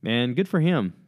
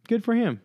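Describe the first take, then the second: First: Said in the usual way. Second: Good for him jumps up high, emphatic; high, cheering echo; high emphatic repeat. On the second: Real, not acted.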